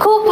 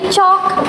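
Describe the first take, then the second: First: The vowel sounds like the one in 'book'. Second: The vowel sounds like the one in 'caught'. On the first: The speaker calls it right. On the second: The speaker calls it wrong.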